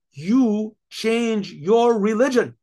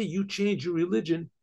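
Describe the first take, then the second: First: "you change your religion" word by word, slow and loud; emphatic royal command. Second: Said in the usual way. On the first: Acted. King enforces his command.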